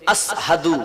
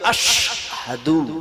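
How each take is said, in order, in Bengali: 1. এই শব্দে সাধারণ s ধ্বনি আছে। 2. এই শব্দে sh ধ্বনি আছে। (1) "ছোট সিন" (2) "হওয়া উচিত ছিল"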